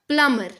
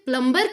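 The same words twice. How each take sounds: First: No b sound is heard in the middle. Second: A b sound is heard in the middle. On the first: The speaker calls it right. "B is silent" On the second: The speaker calls it wrong. "This is also wrong pronunciation"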